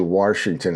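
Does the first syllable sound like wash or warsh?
warsh. An r sound is added in the first syllable. This is a regional accent. "in some parts of the country, they say Washington"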